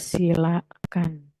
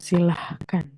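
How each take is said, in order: First: The word has no h sound before kan. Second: The word has an h sound before kan. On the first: The speaker calls it right. "Silakan itu tidak pakai H" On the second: The speaker calls it wrong. "bukan silahkan"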